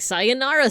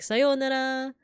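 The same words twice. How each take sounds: First: It is said with an American accent. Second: It is said with a Japanese accent. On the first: The speaker calls it wrong. "if you say it with like an American accent" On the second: The speaker calls it right. "the way that it should be pronounced"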